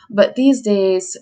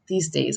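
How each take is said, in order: First: Said in the usual way. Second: A lightly voiced old-timer sigh; old-sounding. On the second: Shown as a demonstration. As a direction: lower and softer, like an old person reminiscing. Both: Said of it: "I sound old".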